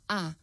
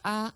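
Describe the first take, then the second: First: The pitch falls sharply from high to low. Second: The pitch stays high and level.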